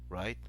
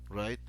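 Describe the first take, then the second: No difference in how they are said.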